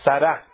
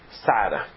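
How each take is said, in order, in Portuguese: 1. A tônica está na última sílaba. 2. A tônica está na primeira sílaba. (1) "É oxítona" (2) "Como que as pessoas falam?"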